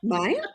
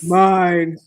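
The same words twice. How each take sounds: First: The voice rises at the end. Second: The voice falls at the end.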